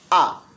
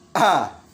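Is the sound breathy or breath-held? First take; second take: breath-held; breathy. First: The breath is held back during the sound. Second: The breath is pushed out with the sound. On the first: The speaker calls it right. "tapi a. Ditahan" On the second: The speaker calls it wrong. "Bukan a"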